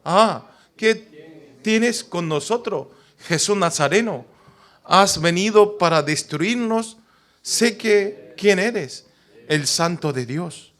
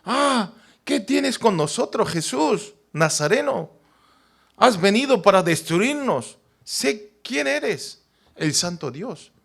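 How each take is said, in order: First: Slow, drawn-out cry of a demon; lightly voiced possessed man; a hint of a demon's wail; unclean spirit crying out. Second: High, slow cry of the unclean spirit; a touch of a possessed man yelling; mild mock demon cry; demon shouting. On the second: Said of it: "Empezó a gritar como".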